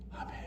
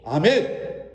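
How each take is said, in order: First: It is said weakly without much energy. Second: It is said loudly with strong energy.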